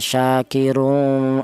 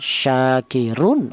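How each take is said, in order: First: The final n is hidden in a nasal hum. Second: The final n is pronounced clearly and distinctly. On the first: The speaker calls it wrong. "Jangan ikhfa, jangan syakirun" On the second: The speaker calls it right. "Yang benar tanwin ini dibaca jelas ... Cara bacanya syakirun, ah, seperti itu"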